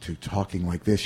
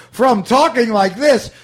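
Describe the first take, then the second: First: Low, subdued and toned right down; Bill Murray's later style. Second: Loud, high-pitched broad delivery; Bill Murray's early style. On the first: Host demonstrating an actor's new technique, low and subdued. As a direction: drop it to an understated murmur. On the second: Host demonstrating an actor's old technique, loud and high. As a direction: call it out big and high. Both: Shown as a demonstration. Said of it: "Bill Murray's change in".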